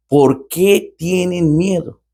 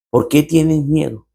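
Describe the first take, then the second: First: Very slow, stretched question, higher; slow, drawn out. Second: Said in the usual way. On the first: Acted. The Lord asking his frightened disciples, slow and drawn out. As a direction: draw out each word of the question.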